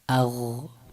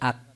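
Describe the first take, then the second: First: The final consonant is soft and its sound continues. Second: The final consonant is hard and stops abruptly. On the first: The speaker calls it right. "صفت رخوت هست و صوت هم در اون کمی ادامه داره" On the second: The speaker calls it wrong. "نباید بشه اق، به این حالت نباید باشه"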